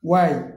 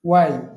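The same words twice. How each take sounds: The two takes are said the same way.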